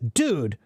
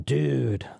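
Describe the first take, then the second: First: It sounds shocked and surprised. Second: It sounds pleased, savoring something tasty. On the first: The speaker disapproves of something bad. "I'm shocked and surprised" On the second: The speaker is enjoying something delicious. "gave me some delicious pizza, I can eat it and say"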